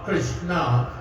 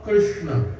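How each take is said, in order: First: The final syllable is stressed. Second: The final syllable is not stressed. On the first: It names the feminine form, the goddess. "when you stress on the a" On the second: It names the male deity, the flute player. "without stressing on the on the last syllable, the a"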